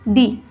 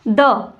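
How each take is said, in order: First: It ends in a long 'ee' vowel. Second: It ends in a short 'uh' vowel. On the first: The next word begins with a vowel. "तो दी बोला जाता है।" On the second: The next word begins with a consonant. "सबसे पहले देखेंगे कि इसको द कब बोला जाता है।"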